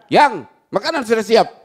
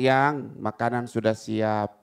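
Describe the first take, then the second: First: The tone is hard and curt. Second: The tone is soft and gentle. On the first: The speaker is annoyed and dismissive. The speaker calls it wrong. "Ya repot" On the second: The speaker feels love for the listener. The speaker calls it right. "ada rasa getaran cinta dong"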